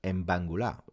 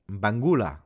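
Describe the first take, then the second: First: "Mbangula" with the accent on the final "la"; French-style stress. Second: "Mbangula" tried out loud, pitch jumping inside the word; trial pronunciation. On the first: Streamer explaining the usual way, "Mbangula" French-style, stressed on "la". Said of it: "With a accent on the la". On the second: Streamer asking viewers how to say it, "Mbangula" tried loudly. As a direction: punch out "Mbangula" as a test. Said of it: "How do you say it then?". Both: Shown as a demonstration.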